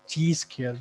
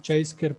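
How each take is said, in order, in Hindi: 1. पहला शब्द "chee" जैसा सुनाई देता है। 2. पहला शब्द "chai" जैसा सुनाई देता है। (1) "जो कि वो भी गलत है" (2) "अक्सर लोग जो है वो इसको चाई स्क्वायर पढ़ते हैं"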